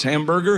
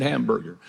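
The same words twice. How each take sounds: First: Hamburger? said as a prompting question, rising at the end; tutor models the word. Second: Hamburger. said lower and softer with a falling close; student repeats the word. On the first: Shown as a demonstration. Tutor coaching his immigrant student: a rising, prompting Hamburger?. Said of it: "Just say these three words". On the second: Retold or imitated. Nervous immigrant repeating after his tutor: low, soft, falling Hamburger. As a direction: repeat Hamburger. quietly, settling down at the end. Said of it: "He said".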